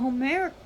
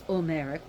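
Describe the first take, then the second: First: The word begins with an audible H sound. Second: The word begins without any H sound. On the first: The speaker calls it wrong. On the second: The speaker calls it right.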